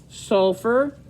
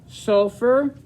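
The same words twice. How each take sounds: Both takes have the same delivery.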